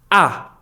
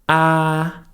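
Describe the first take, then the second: First: The pitch is short and sharp. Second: The pitch stays level and flat. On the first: "is very sharp" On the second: "The first tone is the flat tone"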